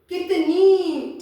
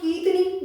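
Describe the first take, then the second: First: The first vowel is short. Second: The first vowel is long. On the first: "जैसे मैं बता बोलूं कि कितनी" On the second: "अगर मैं बोलूं कीतनी"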